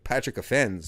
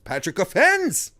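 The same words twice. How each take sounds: First: The pitch drops and the delivery sounds flat. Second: The name is exclaimed with lively, raised energy. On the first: The speaker calls it wrong. "you can't just bring your inflection down to like" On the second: The speaker calls it right. "there's an exclamation mark at the end"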